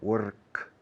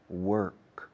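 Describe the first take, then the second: First: The R is tapped, Spanish-style. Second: The R is curled and clearly sounded. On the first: "prefiero hasta la R española" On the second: "The Americans and Canadians say work"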